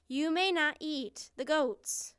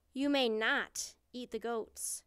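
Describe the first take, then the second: First: Higher, louder, emphatic ban; insistent refusal. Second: Loud, firm ban; firm refusal. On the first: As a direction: forbid it more forcefully, raising the voice. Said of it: "she said again". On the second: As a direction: lay down the rule to a beast. Princess forbids the monster. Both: A narrator's reading.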